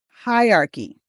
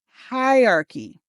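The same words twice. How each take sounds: The two takes are said the same way.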